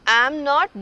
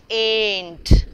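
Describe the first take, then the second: First: It is said as two separate full words. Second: It is said as one short contracted word. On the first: "full forms are common in written English" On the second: "short forms are ... common in spoken English"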